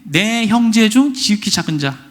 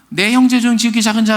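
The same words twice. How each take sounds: First: It is said slowly and deliberately. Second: It is said quickly and hurriedly.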